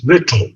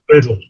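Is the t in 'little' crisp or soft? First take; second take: crisp; soft. First: The t is pronounced as a clear t. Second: The t is softened like a quick d. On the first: The speaker calls it right. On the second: The speaker calls it wrong. "It's not little, most Americans say little"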